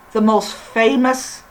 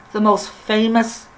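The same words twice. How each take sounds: The two takes are said the same way.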